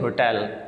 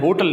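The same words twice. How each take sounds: First: The stress is on the second syllable. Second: The stress is on the first syllable. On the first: The speaker calls it right. "इसमें जोर होता है टेल के ऊपर" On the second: The speaker calls it wrong. "हमने hotel नहीं कहना"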